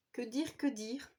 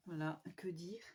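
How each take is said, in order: First: Said in the usual way. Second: Unvoiced whisper, lost for words; whispered musing. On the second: Real, not acted. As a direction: whisper it to yourself, searching. (chuchoté, à court de mots)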